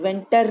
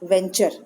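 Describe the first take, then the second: First: The middle consonant is a plain 't' sound. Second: The middle consonant is a 'ch' sound. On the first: The speaker calls it wrong. "वेंटर नहीं बोलेंगे" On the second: The speaker calls it right. "यहाँ चर का आवाज आएगा"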